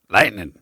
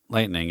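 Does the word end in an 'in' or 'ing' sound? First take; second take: in; ing. First: The word ends with an 'in' sound, no g. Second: The word ends with a full 'ing' sound. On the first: The speaker calls it right. "there's no G" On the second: The speaker calls it wrong. "It's not lightning"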